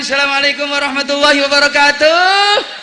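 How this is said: It is said in a lively singer's stage voice.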